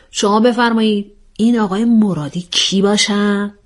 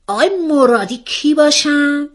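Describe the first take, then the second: First: Orderly, mock-formal polite question; composed questioning. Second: High, startled question, pitch jumping up; excited demand. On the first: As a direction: invite the answer like a presiding mediator. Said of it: "آرامشتون رو حفظ کنید". (پرسش رسمی و آرام) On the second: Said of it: "مثل یک ترقه از جا پرید". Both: A narrator's reading.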